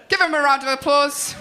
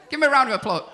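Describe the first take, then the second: First: Rally the crowd with a shout; host shouting. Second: Said in the usual way. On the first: Real, not acted. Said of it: "host hyping crowd".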